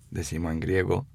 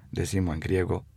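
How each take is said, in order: Both takes have the same delivery.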